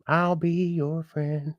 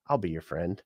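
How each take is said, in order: First: Sing-song drawn-out offer; slow, higher drawn-out repeat. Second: Said in the usual way. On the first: Shown as a demonstration. To new viewers, a slow high drawn-out offer of friendship.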